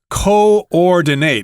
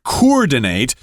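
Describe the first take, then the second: First: The first two vowels are separate syllables. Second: The first two vowels merge into one syllable. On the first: The speaker calls it right. "they are separate syllables" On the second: The speaker calls it wrong. "don't say that"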